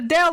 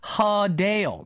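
First: The name starts directly with a vowel. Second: The name starts with an H sound. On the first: The speaker calls it wrong. "it's not Adele" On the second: The speaker calls it right. "It's Hadale. There's no H in the beginning of her name"

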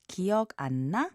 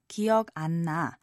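First: It is said with a questioning intonation. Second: It is said with a statement intonation. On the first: The speaker asks whether someone remembers. "ask 기억 안 나?" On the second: The speaker says they do not remember. "the same exact words but with different intonations"

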